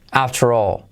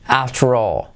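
No difference in how they are said.

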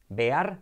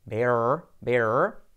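First: "Bear" as Spanish "be-ar"; "Bear" in two vowels, e then a; wrong pronunciation. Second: "Bear" lower, ending in a held English r; "bear" with a long curled r, no open "a"; correct pronunciation. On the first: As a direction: say "Bear" with an open "a" and a short r. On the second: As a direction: glide "bear" straight into "er". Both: Shown as a demonstration.

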